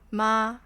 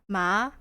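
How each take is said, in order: First: It is said with the first Mandarin tone. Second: It is said with the second Mandarin tone. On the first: It means mom. "the first one is mom" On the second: It means hemp. "Second one is I think it's hemp"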